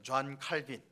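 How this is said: The name is said English-style, ending in 'bin'. This is the English form of the name. The speaker calls it wrong. "이거는 어, 영어식 발음이에요"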